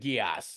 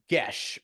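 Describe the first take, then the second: First: It is said as two syllables, gee-ass. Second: It is said as a single syllable, gesh. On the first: This is the popular, cooler-sounding pronunciation. The speaker calls it wrong. "rather than Gias, even though Gias is a cooler way to say it" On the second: This is the original Gaelic pronunciation. The speaker calls it right. "it is pronounced Gesh"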